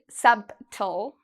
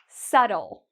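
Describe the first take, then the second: First: A B sound is pronounced before the T. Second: No B sound is pronounced before the T. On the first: The speaker calls it wrong. "they really want to say it, but it's incorrect. We don't say subtle" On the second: The speaker calls it right. "you don't need to worry about the B"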